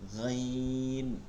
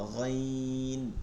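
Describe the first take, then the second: The two takes are said the same way.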